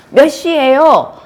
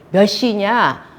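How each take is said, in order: First: Loud, high, slow angry question. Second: Said in the usual way. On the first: Shown as a demonstration. Real-life quarrel over coming home late, angry. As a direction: demand the time as an accusation. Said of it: "화나서 얘기했고". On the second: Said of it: "정상적인 얘기를 한 것처럼".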